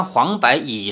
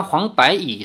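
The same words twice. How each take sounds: First: 柏 in 黄柏椅 read as ba without the ai; the first slip on 柏, bare ba; misread first take. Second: 柏 in 黄柏椅 said bai as in 柏树; corrected reading. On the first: Narrator's first reading of 黄柏椅 before correcting, 柏 said as ba. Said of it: "柏呢是木字旁一个柏，柏树的柏". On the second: Narrator rereads the line with 柏 corrected to bai. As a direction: say 柏 clearly as bai. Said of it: "柏树的柏". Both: Shown as a demonstration.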